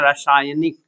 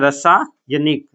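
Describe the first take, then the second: First: The first vowel is a long 'aa'. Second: The first vowel is a short 'a'. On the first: The speaker calls it right. "हम लोग क्या पढ़ते हैं, रासायनिक" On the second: The speaker calls it wrong. "अगला है रसायनिक ... नहीं"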